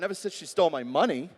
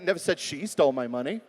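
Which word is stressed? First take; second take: money; she. First: The word 'money' carries the main stress. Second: The word 'she' carries the main stress. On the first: She stole something else. "Well, maybe she stole my heart" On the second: Someone else stole it. "Could have been somebody else"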